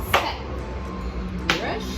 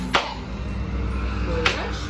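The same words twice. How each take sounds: Both takes have the same delivery.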